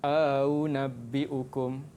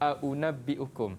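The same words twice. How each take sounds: First: The second glottal stop is softened and lengthened. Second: The second glottal stop is pronounced fully. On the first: This is the reading with tashil and idkhal. "akan dibaca dengan a'unabbi'ukum" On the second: This is the basic reading. "asal dia kita baca a'unabbi'ukum"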